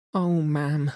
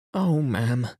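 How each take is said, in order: First: High, upset wail of dismay; distressed maid. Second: Pleading upset cry; distressed maid. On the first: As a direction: cry it out, beside herself. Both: A narrator's reading. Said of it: "She was crying and wringing her hands".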